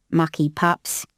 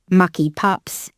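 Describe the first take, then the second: First: Grumbling beefeater. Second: Drawn-out muttering beefeater; slow muttered grumble. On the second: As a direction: grumble it slowly to yourself. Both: A narrator's reading. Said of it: "He was muttering to himself".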